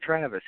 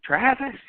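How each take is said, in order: First: Said in the usual way. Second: Mock incredulous yell, pitched way up; high, disbelieving outburst as a question; retold yelling. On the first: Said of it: "And I'm like". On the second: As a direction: imitate a belligerent man yelling the name back. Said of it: "He's just yelling and shit".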